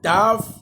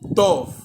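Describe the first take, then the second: First: The vowel sounds like 'ah'. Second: The vowel sounds like 'oh'. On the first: This is the modern pronunciation. "Dans l'hébreu moderne, on dit seulement Tav" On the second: This is the ancient pronunciation. "dans l'hébreu antique on disait Tov"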